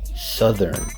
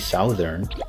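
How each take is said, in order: First: The first syllable sounds like suh. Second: The first syllable sounds like sow. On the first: The speaker calls it right. "we say southern, su" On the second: The speaker calls it wrong. "here we don't say southern"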